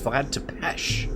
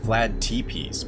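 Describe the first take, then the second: First: The name ends with an sh sound. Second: The name ends with a plain s sound. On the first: The speaker calls it right. "but it's Vlad Tepesh" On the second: The speaker calls it wrong. "I always thought it was Vlad Tepees"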